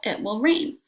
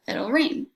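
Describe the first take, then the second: First: It and will are said as separate words. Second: It and will merge into one contracted syllable.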